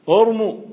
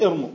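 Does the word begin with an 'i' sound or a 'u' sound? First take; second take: u; i. First: The word begins with a 'u' vowel. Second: The word begins with an 'i' vowel. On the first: The speaker calls it right. "لازم تضم الأول" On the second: The speaker calls it wrong. "وليس ارموا"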